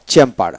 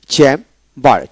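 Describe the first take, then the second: First: Said in the usual way. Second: chamber as chem, pause, bar; two separate beats in chamber; split into syllables. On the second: Shown as a demonstration. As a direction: break chamber clearly after chem. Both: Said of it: "দুই syllable আলাদা হয়ে যাবে".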